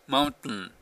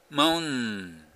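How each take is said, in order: First: The T is held as a brief silent stop. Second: The T is dropped with no stop at all. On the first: "マウンテンとかキャプテンっていう言い方をするから、T っていうの聞こえないですよね" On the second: "これほんまにT を一切やらなかったら"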